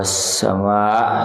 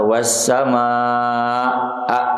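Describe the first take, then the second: First: The final vowel is cut short. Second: The final vowel is drawn out long. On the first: The speaker calls it wrong. "itu hese wassama gitu" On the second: The speaker calls it right. "Kenapa dipanjangkan?"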